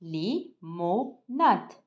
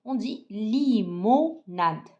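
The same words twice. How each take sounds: First: Li-mo-nade split into slow separate syllables; teacher sounding out limonade for class. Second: Slow model word. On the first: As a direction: spell limonade out beat by beat, very slow. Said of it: "syllabe par syllabe avec moi". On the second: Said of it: "Alors avec moi". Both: Shown as a demonstration.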